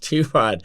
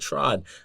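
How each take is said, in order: First: The name is said as two syllables. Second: The name is said as one syllable. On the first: The speaker calls it right. "but it's T Rod" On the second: The speaker calls it wrong. "A lot of people actually pronounce it Trod"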